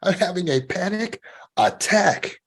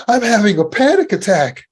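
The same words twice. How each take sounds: First: Higher, slow and ominous; slow scary version. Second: High, loud, alarmed announcement; scared. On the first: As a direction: let the words sink in with dread. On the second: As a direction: say it like it terrifies you. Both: Shown as a demonstration. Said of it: "that sounds scary too".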